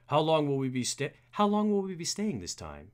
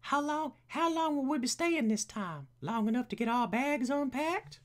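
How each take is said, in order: First: Lightly voiced butler, rising; a hint of butler, lifting in pitch; Alfred. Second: Very high put-on butler voice; high-pitched butler trial; Alfred. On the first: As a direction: try out a tentative butler voice. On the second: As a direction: push the butler up into a silly high register. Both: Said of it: "we need a voice for Alfred".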